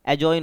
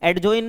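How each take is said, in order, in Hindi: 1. j से पहले कोई d ध्वनि सुनाई नहीं देती। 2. j से पहले d ध्वनि सुनाई देती है। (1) "होता है" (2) "नहीं होता"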